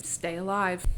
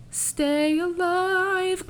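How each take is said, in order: First: Said in the usual way. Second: High, long-held sung notes. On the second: Pretend. Host breaking into a Hamilton song, singing. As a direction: sing it out high and drawn out.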